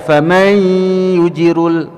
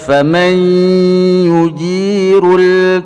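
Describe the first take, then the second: First: The long vowel is cut short. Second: The long vowel is held for two beats. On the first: The speaker calls it wrong. "tidak dibaca faman yujirul" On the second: The speaker calls it right. "tapi dibaca faman yujirul"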